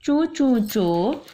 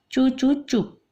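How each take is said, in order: First: Scolding hush that stalls and stumbles, higher and slow; halting scold. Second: Halting scold. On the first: Acted. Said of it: "अब्बा डांटते डांटते रुक गए". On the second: Retold or imitated. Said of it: "तो अब्बा ने क्या बोला?". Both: Father caught mid-scold, a stammering stop. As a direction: start to scold, then choke it back.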